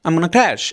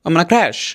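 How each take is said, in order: Both takes have the same delivery.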